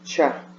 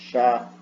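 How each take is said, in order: First: It is said the way people in Cuiabá say it. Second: It is said in the ordinary Brazilian way.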